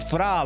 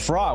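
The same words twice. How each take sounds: First: The word is said with a Honduran Spanish pronunciation. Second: The word is said with an English pronunciation. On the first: "It's not Fra like in Honduran" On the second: "I'm gonna say Fra in English"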